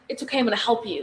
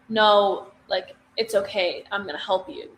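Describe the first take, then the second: First: It is said in a frantic tone. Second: It is said in a sorry, creepy tone.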